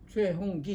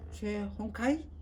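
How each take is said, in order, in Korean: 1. 마지막 음절은 gi로 발음해요. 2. 마지막 음절은 kai로 발음해요. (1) "이렇게 불러줘야 되는데" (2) "그들의 발음이에요. 그렇게 부르면 제가 귀에 거슬려요"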